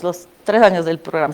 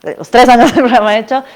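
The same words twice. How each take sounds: First: Said in the usual way. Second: "del" hit higher and louder, with a rising end; emphatic restatement. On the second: Real, not acted.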